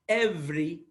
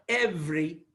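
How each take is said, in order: Both takes have the same delivery.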